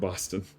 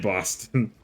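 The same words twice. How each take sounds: First: It is said in the speaker's ordinary accent. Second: It is said in an exaggerated Boston accent.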